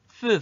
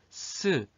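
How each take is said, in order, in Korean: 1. '스'는 혀를 입 밖으로 내서 혀 짧은 소리가 나요. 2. '스'는 앞니 뒤에서 나는 또렷한 마찰음이에요. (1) "혀 짧은 소리를 내는 경우는 혀 끝을 입 밖으로 내뱉어 가지고" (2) "정확하게 제대로 발음하면"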